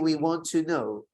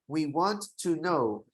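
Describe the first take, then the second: First: The T sound is said once, linked smoothly. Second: The T sound is said twice, separately. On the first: The speaker calls it right. "You simply say we want to know. It's only one T, not two" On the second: The speaker calls it wrong. "You don't say we want to know. ... That doesn't happen"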